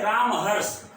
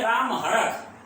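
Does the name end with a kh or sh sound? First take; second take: sh; kh. First: The name ends with an sh sound, Banaras-style. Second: The name ends with a kh sound, other-region style.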